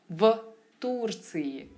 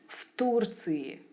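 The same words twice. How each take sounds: First: Said carefully, with the first consonant kept voiced. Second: Said smoothly, with the first consonant devoiced. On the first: The speaker calls it wrong. "I'd enunciate certain sounds" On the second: The speaker calls it right. "it must have sounded more effortless and natural"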